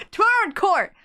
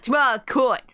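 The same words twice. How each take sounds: First: High-pitched declaration, court said with its r; re-voiced line. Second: "court" as "coit", Brooklyn style; mobster's Brooklyn accent, unraised pitch. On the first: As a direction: announce it high and emphatic. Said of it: "I thought it was him talking". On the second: Acted. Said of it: "Oh, Brooklyn like Meowth".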